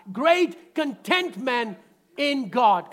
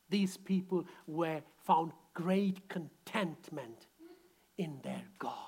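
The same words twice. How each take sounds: First: Slow, loud, punching GREAT; call it out loud. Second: Soft and slow, trailing to a whisper; quiet, slow. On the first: Preacher leading the congregation to shout it. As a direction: proclaim it to the room, slow and strong. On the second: Preacher softly stating the point before the congregation repeats. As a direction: hold it low and slow, almost whispered. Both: Shown as a demonstration. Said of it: "Come on, shout it out".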